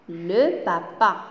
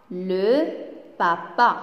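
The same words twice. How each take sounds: First: Said in the usual way. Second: "Le", a clear pause, then "papa"; word by word. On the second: Shown as a demonstration. Teacher asking pupils to read along, word by word. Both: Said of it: "Alors, lisez avec moi".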